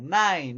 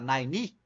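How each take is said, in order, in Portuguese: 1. O início é forte e a terminação é mais leve. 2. A terminação é pronunciada com força demais. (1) "início forte, final fraco, mas aí eu lembro que o final não é tão fraco" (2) "você tá botando muita ênfase no final"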